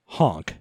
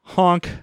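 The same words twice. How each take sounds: First: Much lower, quieter honk; low clown honk. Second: Said in the usual way. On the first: Pretend. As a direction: drop the honk way down and soft.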